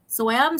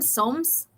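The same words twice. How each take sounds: First: Soam said as SO-am, questioning; two-syllable pronunciation. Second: Soams rhymed with foams, questioning; one-syllable pronunciation. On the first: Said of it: "you don't pronounce the E". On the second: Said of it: "Okay, like foam". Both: Shown as a demonstration.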